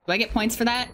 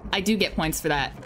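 First: Rising question; wondering if it counts; hopeful query; asking. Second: Confirming it does count; stress on do. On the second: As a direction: do stressed and low. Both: Real, not acted.

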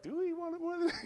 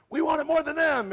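First: Very high, softer questioning echo of a chant; mock team question. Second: High, loud mock team chant; game-day rallying cry. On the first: Team answering the game-day chant, high mock question. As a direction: throw the chant back as a high-pitched question. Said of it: "And we're like". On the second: Team on game day against the other guy, rallying cry. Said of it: "on game day, it's like".

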